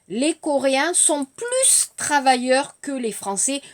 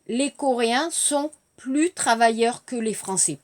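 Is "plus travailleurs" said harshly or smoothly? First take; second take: harshly; smoothly. First: Plus travailleurs is said with harsh, heavy consonants. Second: Plus travailleurs is said softly and smoothly. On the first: The speaker calls it wrong. "Plus travailleurs, non" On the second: The speaker calls it right. "부드럽게 말하세요"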